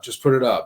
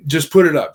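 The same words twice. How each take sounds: First: Said in the usual way. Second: Louder, pushy urging; first, pushier take of the nudge; insistent push. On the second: Retold or imitated. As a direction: lean on it like you're pressing a friend. Friend insisting he post it.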